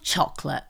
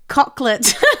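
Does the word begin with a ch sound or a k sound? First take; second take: ch sound; k sound. First: The word begins with a ch sound. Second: The word begins with a k sound. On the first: "they all start with ch" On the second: "What if it was a silent H in the others?"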